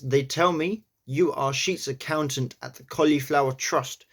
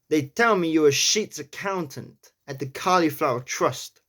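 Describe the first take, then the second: First: It is said in the speaker's own accent. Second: It is said in a New York accent.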